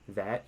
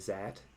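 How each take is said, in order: First: It begins with a plain th sound. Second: It begins with a z sound, German-style. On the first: "instead of saying that" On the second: "you make your T H's and T's into Z's"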